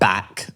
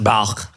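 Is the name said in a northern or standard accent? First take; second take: northern; standard. First: The name is said with a northern vowel. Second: The name is said with a standard pronunciation.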